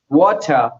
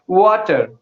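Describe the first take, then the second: First: The final r is dropped, non-rhotic. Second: The final r is pronounced, following the spelling. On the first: "non-rhatic accent. They are like that missing R pronunciation" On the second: "according to Indian English, mostly we would like to go with the spelling"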